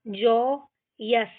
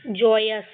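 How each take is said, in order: First: जॉयस slowly split, जॉ, यस; syllable by syllable. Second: Said in the usual way. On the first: Shown as a demonstration. Teacher shows how to read without Hindi, जॉयस slowly split. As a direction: hold जॉ, pause, then यस for जॉयस. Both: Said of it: "इस तरीके से हम ये सारे words को पढ़ेंगे".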